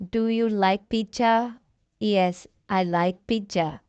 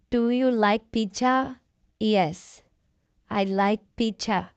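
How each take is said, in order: Both takes have the same delivery.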